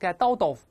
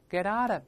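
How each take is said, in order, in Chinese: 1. t音发得重，而且彼此分开。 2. t音是轻轻一点，连读得很顺。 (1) "不能用力，不能get out of" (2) "舌尖在上牙膛轻轻撞一下就好了"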